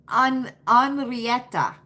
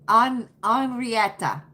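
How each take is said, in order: The two takes are said the same way.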